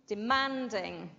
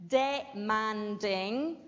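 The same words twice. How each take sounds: First: Said in the usual way. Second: Demanding said slowly with a full, long DE; over-careful demanding with a drawn-out first syllable; demanding with the DE stretched, as not to say it; wrong full first syllable. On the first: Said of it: "Notice when I say demanding". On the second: Shown as a demonstration. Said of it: "de, is not".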